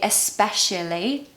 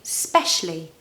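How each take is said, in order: First: The word starts with a vowel before 's'. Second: The word starts directly with the 's' sound. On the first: "you don't need to say especially" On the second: "you can say specially"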